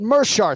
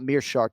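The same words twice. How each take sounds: First: The first syllable does not have an 'ee' vowel. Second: The first syllable has an 'ee' vowel. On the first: The speaker calls it right. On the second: The speaker calls it wrong.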